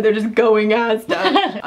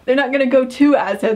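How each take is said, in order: First: Slow, pointed "going Asda" with no "to"; "going Asda" drawn out, amused, "to" left out; skipped "to". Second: Quick "go to Asda", with "to" kept in; demonstrating "to" kept between "go" and "Asda"; full phrasing with "to". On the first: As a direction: spell out the gap in "going Asda". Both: Shown as a demonstration. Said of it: "they'd skip the two".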